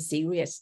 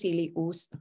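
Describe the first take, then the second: First: It is said the way English speakers say it. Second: It is read sound by sound, following its spelling. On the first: "ถ้าฝรั่งเนี่ยเขาจะออกเสียงเนี่ยเป็น" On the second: "ถ้าอ่านตามตัวสะกดก็คือ"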